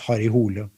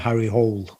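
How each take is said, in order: First: The name is pronounced the Norwegian way. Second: The name is pronounced the English way. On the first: It is the original form used at home. "but in Norwegian it's it's Harry Hole" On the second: It is the simpler form used with foreign audiences. "I call him Harry Hole when I'm abroad"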